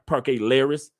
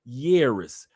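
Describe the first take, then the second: First: The word begins with an L sound. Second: The word begins with a Y sound. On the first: The speaker calls it wrong. "Stop saying Parque Lleras" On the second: The speaker calls it right. "two L's in Spanish is a Y"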